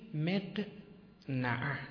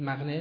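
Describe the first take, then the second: First: The word is said in a careful pronunciation. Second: The word is said in the everyday pronunciation. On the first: The speaker calls it right. "تلفظ صحیحش مق نعه" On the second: The speaker calls it wrong. "میگید مقنعه نمیگید شما؟"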